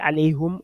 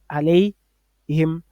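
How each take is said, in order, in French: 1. La voyelle après le h est u. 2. La voyelle après le h est i. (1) "ils vont prononcer alayhum" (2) "au lieu de alayhim"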